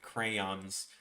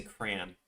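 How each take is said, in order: First: Said in the usual way. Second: Crayon crushed into one syllable, like cran; Chicago style: swallow the middle of crayon. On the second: Shown as a demonstration. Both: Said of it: "We just say".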